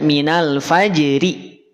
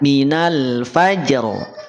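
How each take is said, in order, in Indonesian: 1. Berakhir dengan vokal setelah r ringan. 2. Berakhir dengan r tebal tanpa vokal. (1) "tidak dibaca minal fajri" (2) "tapi dibaca minal fajr. Ro-nya ditebalkan"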